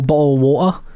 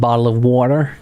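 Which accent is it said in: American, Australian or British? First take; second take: British; American. First: It is said in a British accent. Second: It is said in an American accent.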